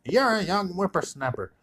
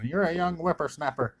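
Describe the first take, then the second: First: High, heated mock comeback; escalating mock retort. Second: Higher mock retort, a bit pitched up; mock trash talk. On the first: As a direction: fire it back at the top of the squabble. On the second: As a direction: snap back like a grumpy old man. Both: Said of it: "talking trash".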